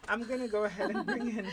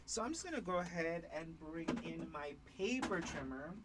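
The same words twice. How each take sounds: First: Louder, higher and fast, laughing; facing up, laughing retake. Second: Speaking toward the floor, a bit muffled; face down on the floor. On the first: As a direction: redo it clearly with a laugh. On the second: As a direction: talk down into the floor. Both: Real, not acted. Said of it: "Doesn't help that I'm speaking to the floor".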